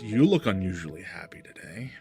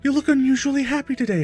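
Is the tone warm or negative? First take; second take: negative; warm. First: It is said in a negative, snide tone. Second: It is said in a warm, friendly tone. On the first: The speaker finds his happiness suspicious. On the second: The speaker is glad and cares about him.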